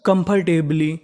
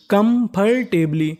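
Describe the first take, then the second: First: Said in the usual way. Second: comfortably slowly as kam-phar-teb-lee; syllable by syllable. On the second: Shown as a demonstration. Teacher sounding out a long word, syllable by syllable. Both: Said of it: "तो meaning बनी".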